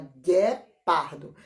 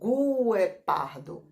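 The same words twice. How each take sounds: First: No 'u' sound is heard after the g. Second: A 'u' sound is heard after the g. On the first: The speaker calls it right. "Fala guepardo" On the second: The speaker calls it wrong. "não fala guepardo"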